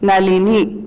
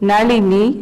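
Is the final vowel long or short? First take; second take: short; long. First: The final vowel is cut short. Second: The final vowel is held long. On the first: This form addresses the person directly. "ह्रस्व हो जाता है" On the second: This is the plain naming form. "दीर्घ अक्षर"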